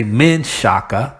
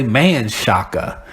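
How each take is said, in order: First: "Menshaka" with a short "men"; variant pronunciation. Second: "Manshaka" with an open "man"; variant pronunciation. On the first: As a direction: say "Menshaka" as men-SHAH-kah. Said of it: "some of 'em will say Menshaka". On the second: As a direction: say "Manshaka" as MAN-SHAH-kah. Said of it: "some will say Manshaka". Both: Shown as a demonstration.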